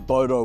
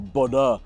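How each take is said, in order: First: The name is said with English vowels. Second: The name is said with Norwegian vowels.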